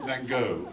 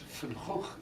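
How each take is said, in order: First: The name is said the audience's usual way. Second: The name is said the original native way. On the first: This is how the listeners say the name. The speaker calls it wrong. "How do you pronounce it?" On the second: This is how the name should properly be said. The speaker calls it right. "is how his name should be pronounced"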